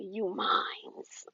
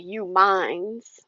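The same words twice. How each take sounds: First: Possessive ex. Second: Said in the usual way. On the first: Retold or imitated. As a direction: claim her like property, quietly. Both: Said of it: "he would say it just like that".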